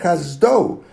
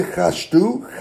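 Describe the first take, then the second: First: "Chazdo" with a clear z and full final o; "Chazdo" said distinctly, no sh; emphasized word ending. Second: "Chashdu" slowly, with sh and final oo; slow faulty "Chashdu"; wrong pronunciation. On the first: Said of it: "You have to emphasize that part". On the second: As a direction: demonstrate the error "Chashdu" with a clear sh. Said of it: "don't say Chashdu". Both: Shown as a demonstration.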